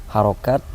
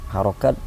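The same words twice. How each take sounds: Both takes have the same delivery.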